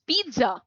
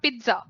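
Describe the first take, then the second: First: The first vowel is a long ee. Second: The first vowel is short. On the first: The speaker calls it right. "it's pizza. बड़ी ई की मात्रा" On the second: The speaker calls it wrong. "it's not pizza"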